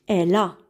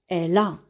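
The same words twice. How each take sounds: Both takes have the same delivery.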